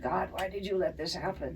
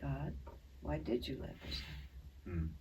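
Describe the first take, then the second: First: It is said in an angry tone. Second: It is said in a curious, interested tone.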